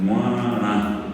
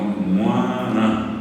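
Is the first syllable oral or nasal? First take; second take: nasal; nasal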